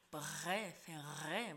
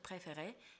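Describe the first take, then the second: First: The R sounds are strong and heavy. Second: The R sounds are soft and light. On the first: The speaker calls it wrong. "не должно быть никакого там то же самое" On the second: The speaker calls it right. "мягкий, легкий"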